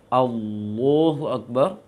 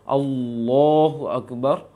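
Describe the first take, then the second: The two takes are said the same way.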